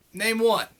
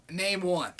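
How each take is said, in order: First: Second "Name one" pushed harder, stress on "one"; louder insistence. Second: Said in the usual way. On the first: Real, not acted. Challenging the commenter to name one, insistent. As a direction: demand it again, firmer.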